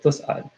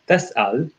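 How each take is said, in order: First: The verb's first vowel is a 'u' sound. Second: The verb's first vowel is an 'a' sound. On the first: You will not be asked about the companions of hellfire. "whereas Hafs said" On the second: Do not ask about the companions of hellfire. "The Warsh version says"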